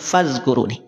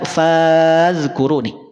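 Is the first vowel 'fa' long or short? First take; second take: short; long. First: The first vowel 'fa' is short. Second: The first vowel 'fa' is drawn out long. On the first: The speaker calls it right. "dibaca langsung" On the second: The speaker calls it wrong. "tidak perlu dipanjangkan, tidak fazkuruni"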